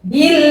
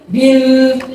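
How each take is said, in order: First: The l sound is light and thin. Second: The l sound is heavy and thick. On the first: The speaker calls it right. "seperti ini" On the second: The speaker calls it wrong. "tidak bil, bil, bil, seperti itu tebal namanya"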